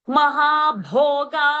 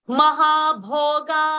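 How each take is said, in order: No difference in how they are said.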